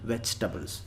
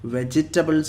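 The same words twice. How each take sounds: First: The syllables are run together quickly. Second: Each syllable is said out separately. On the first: The speaker calls it right. "ഒന്നിച്ചങ്ങ് പെട്ടെന്ന് അങ്ങ് സ്പീഡിൽ പറയാം" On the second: The speaker calls it wrong. "വെജിറ്റബിൾസ് അല്ല, ചിലർ അങ്ങനെ പറയാറുണ്ട്"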